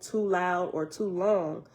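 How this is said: It ends sounding unfinished, as if continuing.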